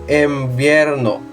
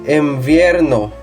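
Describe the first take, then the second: The two takes are said the same way.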